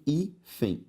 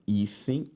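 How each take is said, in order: First: "hífen" slowly split as hí, fen; syllable by syllable. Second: Said in the usual way. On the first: Shown as a demonstration. Teacher separating the word for students, syllable by syllable. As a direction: pause inside "hífen". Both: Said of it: "se eu separo hífen".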